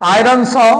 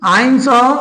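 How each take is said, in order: First: The r sound in iron is clearly pronounced. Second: The r sound in iron is barely pronounced.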